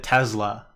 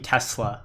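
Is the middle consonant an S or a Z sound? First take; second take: Z; S. First: The middle consonant is a buzzing Z sound. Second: The middle consonant is a hissing S sound. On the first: "I think Elon pronounces it Tesla often" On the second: "team Tesla with a S, not a Z"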